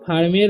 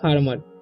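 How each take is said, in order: First: The second syllable has a full 'e' vowel. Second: The second syllable has a weak 'uh' vowel. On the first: The speaker calls it wrong. "यहाँ पर इसे फार्मेर नहीं पढ़ना है" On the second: The speaker calls it right. "इसे पढ़ना है फार्मर। ई का उच्चारण भी यहाँ पर अ हो रहा है"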